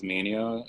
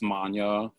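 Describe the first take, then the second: First: The name is said with three syllables. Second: The name is said with two syllables. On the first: The speaker calls it wrong. "commonly mispronounced as" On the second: The speaker calls it right. "for like those who want to go the properly, you know, pronounced way"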